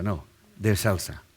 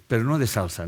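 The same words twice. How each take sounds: First: Slow, "de" leaned on, "salsa" as dance; slow down and press "de"; stress on de. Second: "no" stressed, not sauce. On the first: Correcting the pun, slow stress on de. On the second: Explaining the pun, stress on no. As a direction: hit "no" in "no de salsa". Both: Shown as a demonstration.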